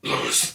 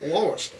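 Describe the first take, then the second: First: It is said in a lower, demonic voice. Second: It is said in a higher voice.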